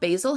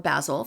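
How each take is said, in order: First: The word is said in a non-British way. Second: The word is said in a British way.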